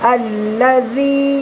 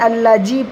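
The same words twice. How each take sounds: First: The 'dh' is said with the tongue tip out. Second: The 'dh' is said with the tongue inside. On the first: The speaker calls it right. "জিভের ডগটা একটুখানি বের করে অপরের দাঁতের সাথে মিলাতে হবে" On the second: The speaker calls it wrong. "আল্লাযী পড়বো না"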